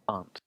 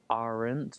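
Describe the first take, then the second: First: The R sound is dropped. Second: The R sound is clearly pronounced. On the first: The speaker calls it right. "drop the R a little bit" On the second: The speaker calls it wrong.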